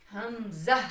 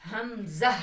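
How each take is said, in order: First: The word is said gently and calmly. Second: The word is said gently and calmly.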